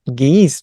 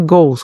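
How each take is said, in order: First: The vowel sounds like 'ee', as in 'guis'. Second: The vowel sounds like 'oh', as in 'go'. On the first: The speaker calls it wrong. "O som aqui não tem nada de ... guis" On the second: The speaker calls it right. "é goes, como se fosse gol"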